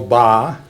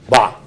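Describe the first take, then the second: First: The pitch stays level and flat. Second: The sound is guttural and swallowed. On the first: It means the number three. "said very flat" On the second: It means any or strengthen. "guttural, you swallow it"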